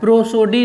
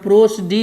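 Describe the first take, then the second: First: The second vowel is a full 'o' sound. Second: The second vowel is a reduced 'uh' sound. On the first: The speaker calls it wrong. "प्रोसोडी नहीं होता है" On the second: The speaker calls it right. "इसका उच्चारण प्रोसडी होता है"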